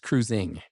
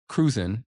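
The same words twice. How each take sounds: First: The ending is fully pronounced with the g. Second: The ending is clipped, without the final g. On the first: The speaker calls it right. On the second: The speaker calls it wrong.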